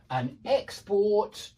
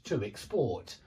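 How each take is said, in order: First: Export stressed on the first syllable, slow; noun stress. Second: Export stressed on the second syllable, low, soft; verb stress. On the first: Teacher drilling the pattern, first-syllable stress on export. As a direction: hit EX in export. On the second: Teacher drilling the pattern, second-syllable stress on export. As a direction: land on PORT in export. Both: Shown as a demonstration. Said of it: "because there is a pattern".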